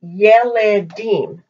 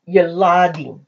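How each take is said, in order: First: Yeledim keeping the eh of Yeled, ye-le-DIM; wrong vowels. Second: Yeladim with "ah" in the middle, ye-LA-dim; changed vowel. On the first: Teacher showing the mistaken plural, Yeledim with unchanged eh vowels. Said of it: "It's not gonna be". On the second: Teacher correcting the plural, Yeladim with the ah vowel. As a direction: say Yeladim with the open "la". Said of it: "it's Yeladim". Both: Shown as a demonstration.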